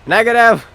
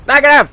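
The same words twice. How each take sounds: First: Negative shouted higher and louder; louder callout. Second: Negative yelled much higher and louder; shouted callout. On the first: Gamer answering the game, louder callout. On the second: Gamer answering the game, shouted callout. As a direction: yell Negative as loud as you can. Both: Acted.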